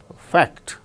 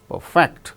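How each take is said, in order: Both takes have the same delivery.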